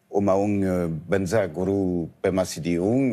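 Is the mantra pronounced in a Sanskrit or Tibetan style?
Tibetan. It is pronounced in a Tibetan way. "d'une façon un peu tibétanisée"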